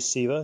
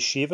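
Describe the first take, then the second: First: The word begins with an 's' sound. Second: The word begins with an 'sh' sound. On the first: "others say Siva" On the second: "many Hindus say Shiva"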